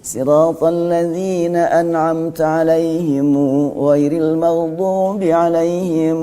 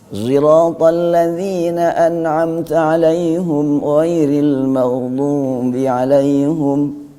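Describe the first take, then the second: First: The first consonant is a plain s sound. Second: The first consonant is blended toward a z sound. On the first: This follows one traditional reading of the text. "kalau Ibnu Katsir dibaca sin" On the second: This follows another traditional reading of the text. "dengan ismam kepada zai"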